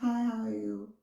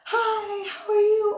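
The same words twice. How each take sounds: First: It is said quietly with low energy. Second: It is said loudly with high energy.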